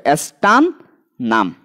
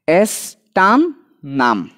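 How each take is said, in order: First: এস্টান then a pause, then নাম on its own; split into syllables. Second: Said slowly as one word, এস্টান নাম drawn out; slow whole name. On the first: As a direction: break এস্টান নাম into two parts with a clear gap. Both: Shown as a demonstration. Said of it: "সি level ভাগ করে দিই".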